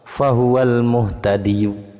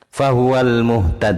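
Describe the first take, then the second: First: The word keeps its final vowel and links onward. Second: The word ends abruptly without a final vowel. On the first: The reciter continues without stopping. "kalau wasol" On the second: The reciter stops at this word. "tetap kalau waqaf"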